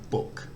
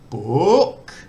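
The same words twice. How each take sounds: First: The pitch stays level in the middle range. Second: The pitch starts low and then goes up. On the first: "with a mid tone, it's just normal speech" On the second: "Rising, it starts off low, then goes up"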